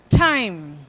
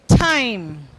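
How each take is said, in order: Both takes have the same delivery.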